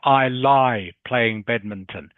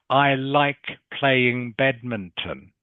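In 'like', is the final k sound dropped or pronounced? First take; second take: dropped; pronounced. First: The final k of like is dropped. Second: The final k of like is clearly pronounced. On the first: The speaker calls it wrong. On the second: The speaker calls it right.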